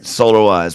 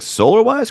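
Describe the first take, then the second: First: The voice falls at the end, like an exclamation. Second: The voice rises at the end, like a question.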